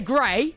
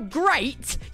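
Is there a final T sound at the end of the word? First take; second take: no; yes. First: The word ends without any T sound. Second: The word ends with a clear T sound.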